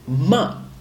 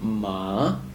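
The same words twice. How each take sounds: First: The tone is short and sharp. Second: The pitch goes down and then up. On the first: It means to scold. "the fourth tone is a short and it's a short and sharp tone" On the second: It means horse. "So you go down and up"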